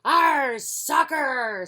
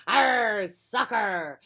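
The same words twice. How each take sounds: First: Loud, high crew cheer; crew shout. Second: Pirate yell. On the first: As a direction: shout it together. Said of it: "said everybody". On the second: Pirate captain yelling. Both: Acted.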